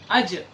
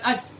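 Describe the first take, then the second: First: The final consonant ends with a slight echo. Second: The final consonant is swallowed without echo. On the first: The speaker calls it right. "harus ada qalqalahnya" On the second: The speaker calls it wrong. "Jadi bukan"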